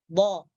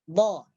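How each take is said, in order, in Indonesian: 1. Konsonan ini dibuat dengan sisi lidah. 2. Konsonan ini dibuat dengan sisi lidah.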